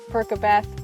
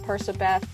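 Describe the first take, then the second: First: The middle consonant is a hard K sound. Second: The middle consonant is a soft S sound. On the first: The speaker calls it wrong. "nowhere in Percy's name or Annabeth's name is there a hard K" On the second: The speaker calls it right. "I think it should be Persabeth"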